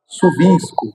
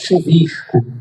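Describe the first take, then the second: First: It is said in a São Paulo accent. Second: It is said in a Carioca accent.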